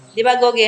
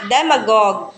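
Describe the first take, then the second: First: Demagogue said as "Dimagoge", with di- and a sounded -ge; mispronounced demagogue. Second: Demagogue said de-ma-gog, silent ending; correct pronunciation demonstrated. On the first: Retold or imitated. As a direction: echo the wrong "Dimagoge", four syllables. (maling bigkas na "Dimagoge", may "ge" sa dulo) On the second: Shown as a demonstration. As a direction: model "demagogue" clearly in three syllables, de-ma-gog. (tamang bigkas ng "demagogue": de-ma-gog) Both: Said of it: "No, this is demagogue".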